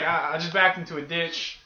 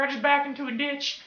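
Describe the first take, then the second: First: Said in the usual way. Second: High put-on old lady voice. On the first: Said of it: "I'm not gonna talk like that". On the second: Old lady reporting her accident to the cashier, high-pitched put-on voice. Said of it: "not gonna talk like that 'cause it's kinda hard".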